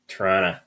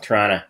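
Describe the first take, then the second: First: The t sounds in the word are pronounced. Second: The t sound after the n is dropped.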